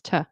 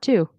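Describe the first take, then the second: First: The syllable is reduced to a weak 'tuh'. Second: The syllable has a full, long 'oo' vowel. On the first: The speaker calls it right. "it's t" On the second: The speaker calls it wrong. "It's not two"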